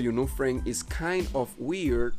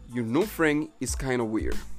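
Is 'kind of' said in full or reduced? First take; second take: full; reduced. First: The words kind of are said fully and separately. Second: The words kind of are run together, reduced. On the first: "en vez de decirlo" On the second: "dirías"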